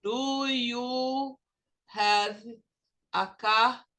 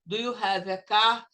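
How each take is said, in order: First: Slow word by word, each word apart; choppy learner English; Portuguese-style. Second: Words run together, do joined to you; natural linked English; English-style. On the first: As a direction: say it broken into separate words. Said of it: "Português seria". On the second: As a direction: link it smoothly into one flow. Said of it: "Olha a diferença". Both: Shown as a demonstration.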